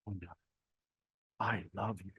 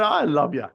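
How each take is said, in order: First: Hushed, much softer, creepy "I love you". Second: Said in the usual way. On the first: Shown as a demonstration. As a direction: breathe "I love you" close and suggestive. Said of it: "I'm gonna end up in a tribunal". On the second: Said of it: "it's how it is said".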